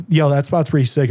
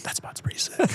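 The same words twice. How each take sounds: First: Said in the usual way. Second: Hushed, voiceless retold aside; whispered echo. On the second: Retold friends later echoing him slyly.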